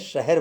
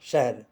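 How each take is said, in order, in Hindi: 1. h और r के बीच एक स्वर सुनाई देता है। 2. h और r के बीच कोई स्वर नहीं सुनाई देता। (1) "हिंदी में यह शहर बोला जाता है" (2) "उर्दू में शहर होता है, शहर दो एक के वजन में"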